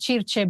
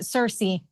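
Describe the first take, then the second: First: The name is said with an Italian pronunciation. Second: The name is said with an English pronunciation. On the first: "I was just saying it in Italian automatically" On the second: "but but Cersei"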